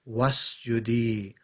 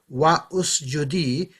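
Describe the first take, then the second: First: Wa joins straight onto sjudi. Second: A separate u vowel follows wa. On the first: The speaker calls it right. "it's just wasjudi" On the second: The speaker calls it wrong. "Instead of wa usjudi"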